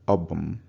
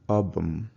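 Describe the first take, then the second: No difference in how they are said.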